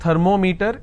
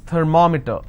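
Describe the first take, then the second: First: The stress falls on the meter part. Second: The stress falls on the syllable before meter. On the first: The speaker calls it wrong. "It's not thermometer" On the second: The speaker calls it right. "I will stress here, because meter itself has two syllables"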